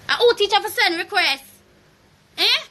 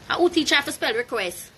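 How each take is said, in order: First: Louder, higher angry repeat. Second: Said in the usual way. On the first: Real, not acted. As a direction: throw it back at her louder. Repeats the line, second louder.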